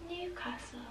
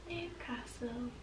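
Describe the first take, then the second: First: High, soft sung Newcastle; sung, chirp Newcastle high and quiet; sung, catchy jingle. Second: Slow, soft sung Newcastle; sung, draw out Newcastle slowly and quietly; sung, slow jingle. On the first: Singing her home town to viewers, high and soft. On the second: Singing her home town again to viewers, slow and soft. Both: Shown as a demonstration. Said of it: "got stuck in your mind".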